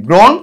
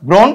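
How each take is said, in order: The two takes are said the same way.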